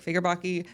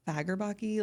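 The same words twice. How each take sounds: First: "Fagerbaki" opened on a "fig" sound; unsure stab at "Fagerbaki", first vowel as in "fig"; second pronunciation attempt. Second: "Fagerbaki" opened on an "ag" sound; unsure stab at "Fagerbaki", first vowel as in "bag"; tentative pronunciation. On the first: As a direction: try "Fagerbaki" as "FIGGER-bocky". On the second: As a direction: try "Fagerbaki" with a short "a" up front. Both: Shown as a demonstration. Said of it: "pronounced the last name".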